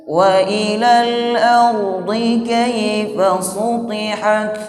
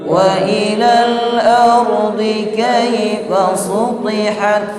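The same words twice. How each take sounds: No difference in how they are said.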